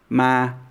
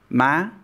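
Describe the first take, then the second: First: The syllable is said in a flat, level tone. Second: The syllable is said in an excited-sounding tone. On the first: "robotic, flat tone" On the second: "excited or exasperated tone"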